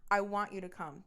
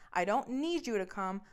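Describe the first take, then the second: First: "want" set against a word just denied; stress on "want". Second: "need" stressed as the contrasting word. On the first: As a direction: stress "want" to correct the meaning. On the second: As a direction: lean on "need" to draw a distinction. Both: Retold or imitated. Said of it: "There's a difference".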